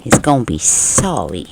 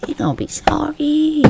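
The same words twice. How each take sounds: First: Said in the usual way. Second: Much higher and softer, playful warning; a soft, high mock threat; high teasing singsong. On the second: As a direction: sing it up high like a tease.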